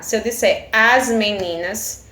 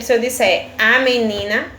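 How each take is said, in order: First: "as meninas" with the S of "as" and "meninas" slowed and leaned on; slow down and make the S in "meninas" clearly heard; stress on the S. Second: Said in the usual way. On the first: Shown as a demonstration. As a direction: plural S pronounced deliberately. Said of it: "porque eu acrescentei o S". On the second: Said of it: "essa palavra está no singular".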